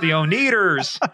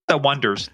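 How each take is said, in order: First: The name is said as 'oh-nee-ders'. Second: The name is said like the word 'wonders'. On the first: The speaker calls it wrong. "everybody kept pronouncing it the O-Neaters" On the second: The speaker calls it right.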